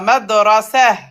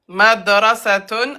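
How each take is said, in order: First: The word stops short on a final -a. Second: The word ends with a full -tun ending.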